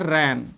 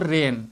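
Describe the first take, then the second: First: The vowel is an open 'a' sound. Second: The vowel is a mid 'e' sound. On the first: The speaker calls it wrong. "बहुत से विद्यार्थी पढ़ते हैं रैन, इस तरीके से पढ़ते रहते हैं ... अ की आवाज़ निकालते हैं, ये गलत है" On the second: The speaker calls it right. "इसको पढ़ना है आपको रेन"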